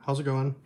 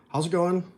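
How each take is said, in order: First: Said in the usual way. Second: Lively greeting. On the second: Real, not acted.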